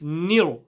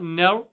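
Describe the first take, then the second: First: The vowel is a clear, front 'ee' sound. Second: The vowel is a neutral, central sound. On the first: The speaker calls it right. "It's nir" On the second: The speaker calls it wrong. "It's not ner"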